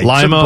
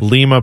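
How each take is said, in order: First: Lima is pronounced the way Ohio says it. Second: Lima is pronounced the way Peru says it. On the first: It names the town in Ohio. "Lima, Ohio" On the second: It names the capital of Peru. "Lima, Peru"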